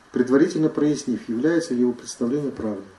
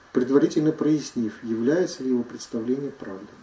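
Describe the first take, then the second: Both takes have the same delivery.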